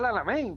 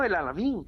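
First: The last syllable sounds like 'eyn'. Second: The last syllable sounds like 'een'. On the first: The speaker calls it wrong. "yo siempre lo he pronunciado mal" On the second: The speaker calls it right. "Pero no, el Alamín"

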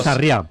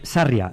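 First: The stress is on the last syllable. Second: The stress is on the first syllable. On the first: It names the Catalan place, written with an accent mark. The speaker calls it wrong. "no Sarria" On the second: It names the town on the Camino de Santiago. The speaker calls it right. "es Sarria"

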